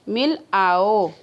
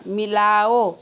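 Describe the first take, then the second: First: Slow "मिल", a clear break, then "आओ"; split into two words. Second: "मिलाओ" run together without a break; joined as one word. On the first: Teacher showing where to pause, slowly separating "मिल आओ". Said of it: "कहाँ थोड़ा". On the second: Teacher demonstrating juncture, joining "मिलाओ" into one word. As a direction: say "मिलाओ" as a single connected word. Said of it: "अलग-अलग शब्दों को हमने जोड़ दिया". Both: Shown as a demonstration.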